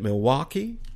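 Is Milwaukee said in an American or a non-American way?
American. It is said in an American pronunciation.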